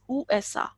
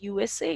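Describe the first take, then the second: First: The letters are named with German letter sounds. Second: The letters are named with English letter sounds. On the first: The speaker calls it right. "it is U S A in German" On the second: The speaker calls it wrong. "it is not U S A"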